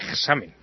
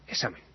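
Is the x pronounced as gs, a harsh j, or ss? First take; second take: harsh j; ss. First: The x is pronounced with a harsh j sound. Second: The x is assimilated into a double s sound. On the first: "no hagan la burrada de pronunciarlo como una J" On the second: "asimilarlo, sobre todo con la S"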